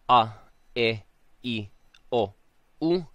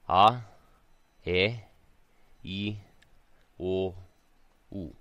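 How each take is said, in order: First: Each vowel starts sharply, with an abrupt onset. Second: Each vowel starts softly, sliding in gently. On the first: The speaker calls it wrong. "notice I'm not saying" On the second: The speaker calls it right. "I'm making a conscious effort to slide in to the vowel"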